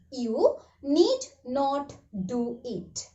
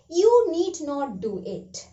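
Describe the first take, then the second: First: You need not do it said slowly, word by word; slow classroom model sentence; slow, careful repeat. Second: Said in the usual way. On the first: Shown as a demonstration.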